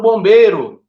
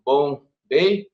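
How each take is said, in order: First: Said in the usual way. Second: "Bombeiro" slowly split into bom, bei, ro; syllable by syllable. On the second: Shown as a demonstration. Teacher counting syllables on fingers, "Bombeiro" slowly broken apart. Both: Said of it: "Separa a sílaba".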